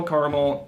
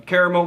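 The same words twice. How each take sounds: First: "caramel" in two syllables, CAR-mel; alternate pronunciation. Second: "caramel" in three syllables, CARE-uh-mel; alternate pronunciation. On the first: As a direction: drop the middle vowel of "caramel". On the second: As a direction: sound the middle vowel of "caramel". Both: Shown as a demonstration. Two pronunciations read side by side.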